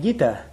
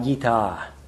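First: The final vowel is short. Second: The final vowel is long. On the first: It means a song. The speaker calls it wrong. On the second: It means an instruction. The speaker calls it right.

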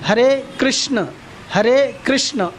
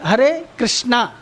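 First: The name ends without a long 'aa' vowel. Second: The name ends with a long 'aa' vowel. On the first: It calls the male deity. The speaker calls it right. "इसका उच्चारण आप जानते हैं कैसा होना चाहिए" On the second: It calls a female name by mistake. The speaker calls it wrong. "लेकिन normally लोग उच्चारण क्या करते हैं"

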